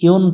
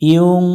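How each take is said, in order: First: The final n is pronounced fully and clearly. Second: The final n is hidden as a nasal hum. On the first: The speaker calls it wrong. "ইউন পড়া যাবে না" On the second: The speaker calls it right. "ইউং নুনটাকে গোপন করে বাংলায় অনুস্বর ধরব"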